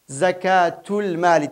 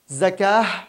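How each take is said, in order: First: The word ends in a t sound. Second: The word ends in an h sound. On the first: "تاع كمان نطق" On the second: "وتنطق هاء عند الوقف"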